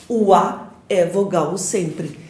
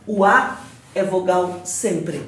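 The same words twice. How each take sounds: The two takes are said the same way.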